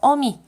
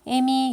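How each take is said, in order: First: The first syllable has the vowel 'eo'. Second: The first syllable has the vowel 'e'. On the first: This is the standard form. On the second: This is the umlauted colloquial form.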